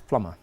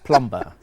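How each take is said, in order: First: The B is silent. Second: The B is pronounced. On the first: The speaker calls it right. "The B is silent in that word" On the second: The speaker calls it wrong. "here everybody says plumber"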